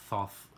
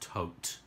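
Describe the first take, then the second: First: The word ends with a th sound. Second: The word ends with a plain t sound. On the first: The speaker calls it wrong. "is easier to say and sounds less weird to me" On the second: The speaker calls it right. "I think the correct pronunciation is Tote"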